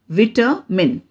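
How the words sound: The word is said in a British accent. "British pronunciation"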